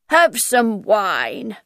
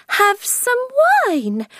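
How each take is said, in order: First: Slow, polite offer; drawn-out polite invitation; politely. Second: Much higher, slow mocking echo; mocking quote. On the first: Acted. Hatter politely offering Alice wine, slow and courteous. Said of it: "the Mad Hatter said politely". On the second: Alice echoing the Hatter's offer, high and mocking. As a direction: mimic his offer back at him. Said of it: "Alice said angrily".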